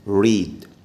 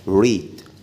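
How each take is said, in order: No difference in how they are said.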